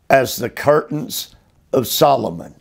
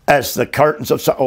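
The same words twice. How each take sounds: First: Said in the usual way. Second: Fast, tossed-off echo of the verse; fast restatement of "As the curtains of Solomon"; quick repeat. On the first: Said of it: "reads verse, then repeats quickly". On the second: Shown as a demonstration. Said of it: "quick repeat of the verse".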